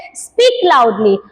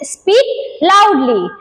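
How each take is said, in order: First: Lower, drawn-out teacher command; slow model phrase. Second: Drawn-out teacher command; slow model phrase. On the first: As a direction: stretch it like a teacher calling. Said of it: "तो teacher बोलती है". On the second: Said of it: "तो हम लोग English में क्या बोलते हैं". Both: Shown as a demonstration.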